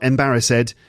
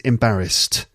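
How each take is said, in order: First: The ending is an extra 'id' syllable. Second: The ending is a short 'st' sound. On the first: The speaker calls it wrong. "there's an ed ending there, ed, but it's not embarrassed" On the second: The speaker calls it right. "it's embarrassed. St at the end"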